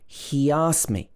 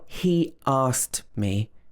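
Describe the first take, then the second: First: A y sound links the two vowels together. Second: The two vowels are kept apart without linking. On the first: The speaker calls it right. "It should be he asked me. So it's almost like we're adding a y" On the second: The speaker calls it wrong. "So it's not he asked me"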